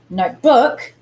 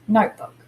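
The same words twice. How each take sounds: First: The stress is on the second syllable. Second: The stress is on the first syllable. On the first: The speaker calls it wrong. "It's not notebook" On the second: The speaker calls it right. "but notebook"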